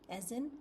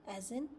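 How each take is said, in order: No difference in how they are said.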